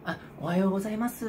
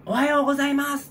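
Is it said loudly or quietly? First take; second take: quietly; loudly. First: It is said in a quiet voice. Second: It is said in a loud voice.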